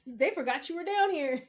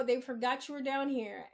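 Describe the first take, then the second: First: Louder, higher, driving it home; a raised, exasperated restatement; emphatic repeat. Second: Said in the usual way. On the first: Real, not acted. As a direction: punch out "They forgot you were down here".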